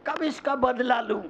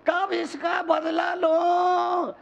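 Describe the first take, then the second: First: Said in the usual way. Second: High, drawn-out imitation of a grudge-holder; mock vengeful cry. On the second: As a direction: wail the question high and stretched, mocking. Grudge repeated, acted out. (बदले की तड़प की नकल, ऊँचे सुर में खींचकर)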